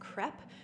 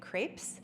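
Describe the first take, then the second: First: The word is said with a French-like pronunciation. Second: The word is said with an American pronunciation. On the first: The speaker calls it right. "a better pronunciation is" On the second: The speaker calls it wrong. "In the U S, we would likely say"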